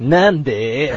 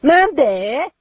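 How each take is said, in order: First: It is said in a low voice. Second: It is said in a high voice.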